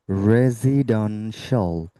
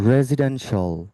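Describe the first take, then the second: First: রেসিডেন্সিয়াল very slowly, "re-zee-dan-shol"; broken-down pronunciation. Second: রেসিডেন্সিয়াল at normal pace, "re-zi-den-shol"; joined-up pronunciation. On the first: Teacher breaking the word down for students, slow syllable-by-syllable. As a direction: stretch each syllable of রেসিডেন্সিয়াল, with a z. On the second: Teacher putting the word back together, natural-speed model. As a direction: say রেসিডেন্সিয়াল in one go, with a z. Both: Shown as a demonstration. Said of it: "not রেসি".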